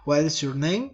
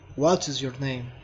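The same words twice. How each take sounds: First: The voice rises at the end. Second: The voice falls at the end. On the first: "Rising intonation" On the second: "Following intonation"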